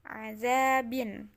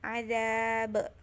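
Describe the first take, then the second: First: The word ends with a vowel plus n. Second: The word ends on a bare consonant. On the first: This is the full form with its ending. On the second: This is the form used when stopping here.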